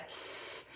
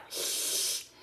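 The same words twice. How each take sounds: First: S with air over the front of the tongue; crisp central S hiss; correct S sound. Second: S hissed out the sides of the tongue; lateral lisp. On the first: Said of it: "come out through the front over the tongue like". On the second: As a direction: wet slushy side S. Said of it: "not out the side like S". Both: Shown as a demonstration.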